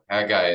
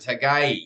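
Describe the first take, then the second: First: The name is said with an English pronunciation. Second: The name is said with a Hebrew pronunciation. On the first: "the way that at least the English we've pronounced it" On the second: "the actual uh, pronunciation in Hebrew"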